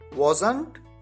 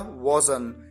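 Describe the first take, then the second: First: The final t sound is pronounced. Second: The final t sound is dropped. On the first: "last में जो ट आता है चाहे तो उसे आप बोलें" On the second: "चाहे तो आप उसे न बोलें"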